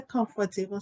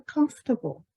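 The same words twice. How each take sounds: First: "comfortable" in four syllables, com-fa-te-ble; Liberian-style com-fa-te-ble for "comfortable"; Liberian pronunciation. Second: "comfortable" shortened to comf-ta-ble; higher-pitched corrective "comfortable", said as comf-ta-ble; corrected pronunciation. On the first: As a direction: quote "comfortable" with the extra middle syllable. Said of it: "don't say comfortable". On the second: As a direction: model "comfortable" with the middle syllable squeezed. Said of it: "say comfortable". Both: Retold or imitated.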